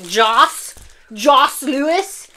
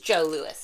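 First: The first name ends with an s sound. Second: The first name ends in a long vowel, no s. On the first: The speaker calls it wrong. "so we wouldn't be like" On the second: The speaker calls it right. "I assume that's how you pronounce it"

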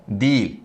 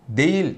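No difference in how they are said.

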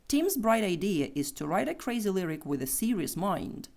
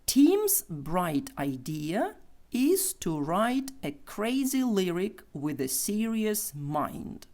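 First: The sentence is spoken quickly. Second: The sentence is spoken slowly. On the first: "Тепер швидше" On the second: "Повільно"

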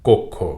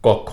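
First: The first vowel is a closed 'o' sound. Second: The first vowel is an open 'aw' sound. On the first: The speaker calls it right. "আদ্যটি ওকারের মতো উচ্চারিত হবে" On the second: The speaker calls it wrong. "কখনো যেন শব্দটির উচ্চারণ কক্ষ না হয়"

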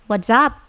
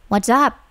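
The two takes are said the same way.

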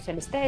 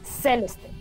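First: The stress falls on another later syllable. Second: The stress falls on the first syllable. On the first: The speaker calls it wrong. "o Celeste" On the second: The speaker calls it right. "es Celeste. porque la tilde está en la primera"

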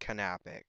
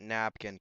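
First: The name sounds like canapic, with three syllables. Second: The name sounds like the word napkin. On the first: The speaker calls it right. "but it's actually pronounced Canapic" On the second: The speaker calls it wrong. "I always called it Napkin because I didn't know how to pronounce it"

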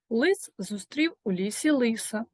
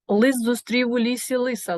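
First: It is said at a moderate pace. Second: It is said at a very fast pace.

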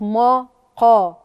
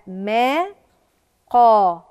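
First: The opening m sound is heavy and emphatic. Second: The opening m sound is light and thin. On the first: The speaker calls it wrong. "مش ما قا" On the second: The speaker calls it right. "الميم رقيقة"

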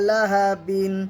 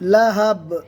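First: The word ends with an added -in sound. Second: The word ends on a bare b sound. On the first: The reading continues without stopping. "বা দু জের বিন" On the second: The reading stops on this word. "বাকে সাকিন করলে কিভাবে পড়বো?"

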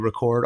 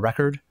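First: The stress is on the second syllable. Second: The stress is on the first syllable. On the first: It is a verb: to capture sound. "if the emphasis is on the second syllable, it's the verb" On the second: It is a noun: a vinyl disc. "the noun gets the emphasis on the first"

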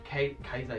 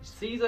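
First: The name begins with a K sound. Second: The name begins with an S sound. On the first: "because the Romans pronounced it with a K" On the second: "I said Caesar, like a salad"

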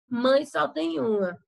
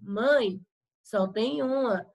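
First: It runs on with no pause after mãe. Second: There is a short pause after mãe. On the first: There is only one mother. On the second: The speaker tells their mother there is only one.

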